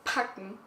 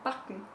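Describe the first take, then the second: First: It begins with a hard, aspirated P sound. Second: It begins with a soft B-like sound. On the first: "if you pronounce it German" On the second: "if you're Austrian like me"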